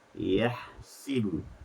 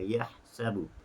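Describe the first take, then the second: First: The vowel after the s sound is i. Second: The vowel after the s sound is a. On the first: "Sin dibariskan dengan baris di bawah" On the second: "Hafs membaca dengan yahsabu"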